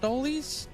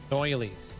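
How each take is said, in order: First: The first vowel is a plain o, like dollies. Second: The first vowel is an oi sound, like doilies. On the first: The speaker calls it wrong. "I always pronounce that wrong" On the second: The speaker calls it right. "I know it's pronounced doily"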